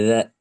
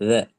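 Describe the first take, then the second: Both takes have the same delivery.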